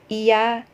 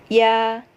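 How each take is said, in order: First: It starts with a separate full i vowel. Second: It starts with a quick y glide. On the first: The speaker calls it wrong. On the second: The speaker calls it right. "akan terdengar seperti huruf Y"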